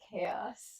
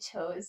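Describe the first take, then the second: First: The word is said as two syllables, kay-oss. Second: The word is said as one syllable, rhyming with toes. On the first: The speaker calls it right. "instead of chaos" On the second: The speaker calls it wrong. "I used to say chose instead of"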